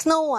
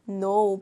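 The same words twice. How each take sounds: First: "know" mispronounced "kuh-no", with the K sounded. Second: "No" starting straight on N, no K sound; silent K. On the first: Teacher shows the mistake to avoid, "know" with a sounded K. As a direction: voice the silent K at the start of "know". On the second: Teacher corrects the students' mistake, "No" with silent K. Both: Shown as a demonstration. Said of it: "발음은 know입니다".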